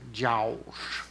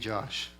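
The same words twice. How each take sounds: First: The name is said in a thick Southern accent. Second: The name is said in a plain accent.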